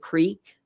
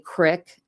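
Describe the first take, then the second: First: The vowel is a long 'ee' sound. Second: The vowel is a short 'ih' sound. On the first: It is the standard form a parent would insist on. The speaker calls it right. "a creek like water" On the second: It is how people in the small town said it. The speaker calls it wrong. "they would say crick instead of creek"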